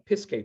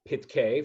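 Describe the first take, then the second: First: The middle consonant is an s sound. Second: The middle consonant is a t sound. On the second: "this work is pitkei, from the word patach"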